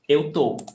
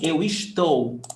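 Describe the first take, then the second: First: The verb is clipped to one short syllable. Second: The verb is said in its full form. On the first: This is everyday spoken usage. "we say eu tô" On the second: This is the standard form. "Instead of saying eu estou"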